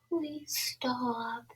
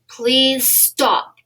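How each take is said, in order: First: It is said in a weak, timid voice. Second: It is said in a strong, firm voice.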